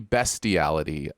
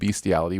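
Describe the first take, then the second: First: The first syllable sounds like 'best'. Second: The first syllable sounds like 'beast'. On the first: The speaker calls it right. "It is actually" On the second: The speaker calls it wrong.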